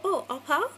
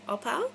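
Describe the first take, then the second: First: "pau" said as Hawaiian pau, rhymes with cow, rising question; casual Pidgin "Oh, all pau?" with a lift on pau; mock local Hawaiian ask, "all pau?" rising at the end. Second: "pau" like cow, light question rise; casual "All pau?" as a local would say it; relaxed Pidgin check-in, "pau" rising; Hawaiian Pidgin pau. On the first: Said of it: "pau is kind of, like, done in Hawaiian". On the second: Retold or imitated. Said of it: "I always say".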